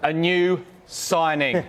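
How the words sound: It is said with lively enthusiasm.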